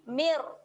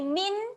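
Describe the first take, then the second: First: The n merges into a final r sound. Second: The word ends with a clear n sound. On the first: The speaker calls it right. "bunyi mir" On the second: The speaker calls it wrong. "jangan bunyi min"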